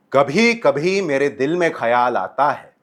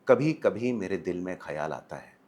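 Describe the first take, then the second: First: Projected from the diaphragm, slower and louder; stage delivery. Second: Said in the usual way. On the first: Shown as a demonstration. Coach showing a theatre voice for a big auditorium. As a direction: throw the line to the back row. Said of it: "लेकिन मैं समझो stage पे हूँ, तो बोलूँगा". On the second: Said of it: "एक तो है मैं बोलूँ".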